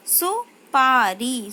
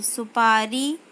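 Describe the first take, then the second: First: सुपारी drawn out slowly, falling; slow syllable-by-syllable reading. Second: Said in the usual way. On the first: Shown as a demonstration. Teacher slowly sounds out सुपारी for pupils. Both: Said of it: "शब्द पढ़ेंगे".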